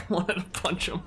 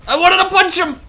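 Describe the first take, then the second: First: Softer, deflated muttered repeat; quiet repeat. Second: High, loud outburst about wanting to punch him; frustrated shout. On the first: Gamer repeating to chat after the outburst, quiet and amused. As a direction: take it back down, quietly. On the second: Gamer shouting to chat about an enemy, loud and high. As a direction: yell it out in frustration. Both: Real, not acted.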